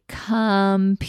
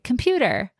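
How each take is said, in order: First: Stretched-out word; slow blending demo; said slowly. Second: Said in the usual way. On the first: Shown as a demonstration. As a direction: say it really slowly, sound by sound. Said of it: "really slowly". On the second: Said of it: "the child will say".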